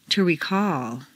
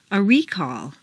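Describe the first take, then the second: First: ReCALL, stressed on the second syllable. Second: REcall, stressed on the first syllable. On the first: Teacher models verb "recall", second-syllable stress. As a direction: hit CALL in "recall". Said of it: "to the second syllable". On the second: Teacher models noun "recall", first-syllable stress. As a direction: hit RE in "recall". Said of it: "first syllable for nouns". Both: Shown as a demonstration.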